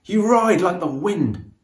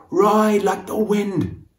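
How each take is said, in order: First: Admiring call. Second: Higher, louder and slow on "Ride like the wind"; slow urging cry of "Ride like the wind"; shouted. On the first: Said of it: "he shouts". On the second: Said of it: "shouts Phoenix". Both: A narrator's reading.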